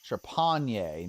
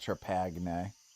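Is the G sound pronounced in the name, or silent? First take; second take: silent; pronounced. First: The G sound is silent in the name. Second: The G sound is pronounced in the name. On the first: The speaker calls it right. "They're not going to pronounce that G" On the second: The speaker calls it wrong.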